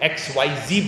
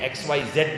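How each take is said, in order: First: The last letter is pronounced zee. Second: The last letter is pronounced zed. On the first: This is how people in America say it. The speaker calls it right. "ये लोग एक्स Y जी बोलते हैं" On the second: This is how the older generation says it. The speaker calls it wrong. "X Y जेड नहीं बोलते हैं"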